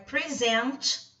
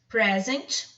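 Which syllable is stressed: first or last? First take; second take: last; first. First: The stress is on the last syllable. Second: The stress is on the first syllable. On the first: It is a verb meaning to introduce. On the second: It is a noun meaning a gift.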